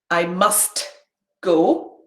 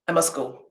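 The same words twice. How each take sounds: First: Said slowly with the t in must pronounced. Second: Said quickly with the t in must dropped.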